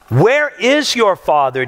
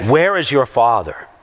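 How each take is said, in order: First: Slow, measured read of "Where is your father?"; scripture reading. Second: Lower, contemptuous "Where is your father?"; sneering question. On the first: Acted. Preacher reading the verse aloud, slow and measured. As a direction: read the verse plainly and deliberately. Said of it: "Back to verse nineteen". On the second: Retold or imitated. The leaders mocking Jesus, low and sneering. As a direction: slur it as an insult. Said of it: "religious leaders saying to Jesus".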